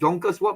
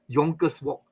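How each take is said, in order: First: The first word begins with a J sound. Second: The first word begins with a Y sound.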